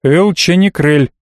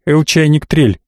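First: "Элченикрель" said slowly, with "че" and no "т"; careful, slow "Элченикрель", ending in a clean "крель"; correcting the name. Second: "Элчайниктрель", with "чай" and an extra "т"; mispronounced name. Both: A narrator's reading. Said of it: "поправил он меня".

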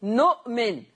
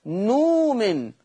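First: نؤمن with glottal stop; Hafs reading. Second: نومن without hamza, long slow u; Warsh reading. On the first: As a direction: say نؤمن with hamza. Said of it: "في حفص بيقول إيه". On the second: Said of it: "أما في ورش يقول نومن". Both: Shown as a demonstration.

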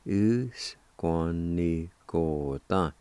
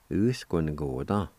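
First: "U, S, Kwa, Ni, Ko, Ta" stretched, syllables distinct; slow sounding-out. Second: "U-S-Kwa-Ni-Ko-Ta" blended into one word; joined-up pronunciation. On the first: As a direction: draw out each piece of "U-S-Kwa-Ni-Ko-Ta". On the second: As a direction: say "U, S, Kwa, Ni, Ko, Ta" with no breaks. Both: Shown as a demonstration. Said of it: "It's pronounced like this".

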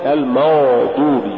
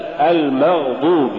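First: المغضوب with an over-thick ghayn smeared into a dark vowel; faulty ghayn. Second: المغضوب with a fully voiced, moderately heavy ghayn; correct ghayn. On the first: Tajweed teacher showing the mistaken reading, faulty ghayn. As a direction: blur the gh of المغضوب. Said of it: "تقرأ لحنا". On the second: Tajweed teacher giving the example, correct ghayn. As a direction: sound the gh in المغضوب cleanly. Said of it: "مثال". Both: Shown as a demonstration.

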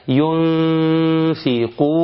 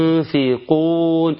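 First: Very slow ينفقون with the nun hidden in a long nasal hum; slow tajweed recitation; Quranic recitation. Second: ينفقون drawn out very slowly with a held nasal ghunna; slow repeated tajweed recitation; Quranic recitation, a second take. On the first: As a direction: recite ينفقون, holding the ghunna before the F. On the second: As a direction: recite ينفقون again, stretching the hidden nun. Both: Shown as a demonstration. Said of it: "الإخفاء".

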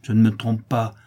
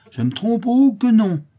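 First: Firm statement at normal pitch; firm insistence. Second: High, loud, swooping sarcasm; bitter irony. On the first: Widow insisting to Clara she is right, firm. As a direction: state it squarely, without the mockery. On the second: Widow rejecting Clara's doubt, bitterly ironic. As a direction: scoff loudly at the very idea. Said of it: "avec une ironie amère". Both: A narrator's reading.

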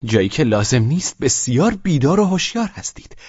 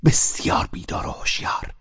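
First: Higher, sharp reproach; blurted reproach. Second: Whispered repeat. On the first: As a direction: blurt it out in anger. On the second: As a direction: repeat "بسیار بیدار و هوشیار" as a voiceless whisper. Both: A narrator's reading. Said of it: "از زبانش پرید و گفت".

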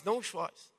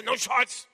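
First: Very soft, low and tender; gentle consolation. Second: Curt imperative, unsoftened; firm command. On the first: Preacher showing the same words as comfort, gently. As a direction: soothe with a quiet, low voice. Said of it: "mas é um consolo". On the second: Preacher contrasting an order with comfort, firmly. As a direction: give it as a brief order. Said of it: "É totalmente dizer". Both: Shown as a demonstration.

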